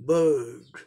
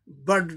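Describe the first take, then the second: First: The vowel is held long. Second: The vowel is said short and clipped. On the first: The speaker calls it right. "अ अ sound long होता है" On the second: The speaker calls it wrong. "Bird नहीं बोल सकते हैं"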